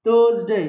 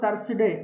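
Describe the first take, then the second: First: The consonant after 'Thur' sounds like z. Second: The consonant after 'Thur' sounds like s. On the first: The speaker calls it right. "must be pronounced like za" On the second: The speaker calls it wrong. "People generally mispronounce this word"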